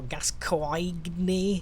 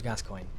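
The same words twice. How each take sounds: First: The name is pronounced in a garbled, mangled way. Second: The name is pronounced plainly and normally. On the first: The speaker calls it wrong. "people see his name, it's like, oh" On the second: The speaker calls it right. "his name's Gascoigne"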